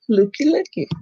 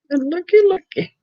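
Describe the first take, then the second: First: Said in the usual way. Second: Playful looky looky. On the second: Real, not acted. Greeting a viewer who dropped in.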